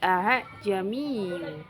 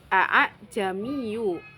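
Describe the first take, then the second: First: The hamzah is softened between hamzah and alif. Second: The hamzah is pronounced as a full glottal stop. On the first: "Karena dibaca tashil, bunyinya menjadi a'jamiyu" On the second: "semula berbunyi a'jamiyu"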